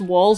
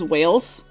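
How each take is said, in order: First: The name rhymes with 'calls'. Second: The name rhymes with 'sails'. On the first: The speaker calls it right. "Mispronounced Walls as Wales" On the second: The speaker calls it wrong. "Mispronounced Walls as Wales"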